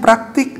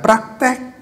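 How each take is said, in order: First: The last syllable has an 'i' vowel. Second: The last syllable has an 'e' vowel. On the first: The speaker calls it right. "benarnya praktik dengan i" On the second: The speaker calls it wrong. "bukan praktek"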